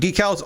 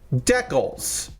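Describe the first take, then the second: First: It is said in the speaker's usual way. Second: It is said the way Canadians say it.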